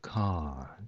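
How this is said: It is said with a weak, faint final r. "イギリス人が言うとcar"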